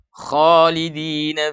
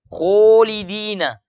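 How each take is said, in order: First: The first vowel is an open a sound. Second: The first vowel is rounded toward o. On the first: The speaker calls it right. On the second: The speaker calls it wrong.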